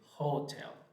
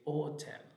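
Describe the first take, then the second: First: The word begins with an audible h sound. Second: The word begins directly with the vowel, h silent. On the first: The speaker calls it wrong. "We don't say hotel" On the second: The speaker calls it right. "it's silent"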